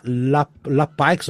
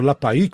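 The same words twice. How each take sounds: First: "La Paix" with the final x sounded; hesitant first go at "La Paix", ending like "pikes"; unsure pronunciation. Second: "La Paix" without a clear final "ks"; alternative pronunciation. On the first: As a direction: slowly try "La Paix" as "la paiks". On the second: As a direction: try "La Paix" another way, closer to "la pai". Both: Shown as a demonstration. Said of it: "sei lá como é que se pronuncia".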